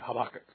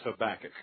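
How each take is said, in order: First: The word is said quickly. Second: The word is said slowly and drawn out. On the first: "The way the Hebrews would say it would be Habakkuk, real fast like that" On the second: "I'm going to slow down and use the Texas pronunciation"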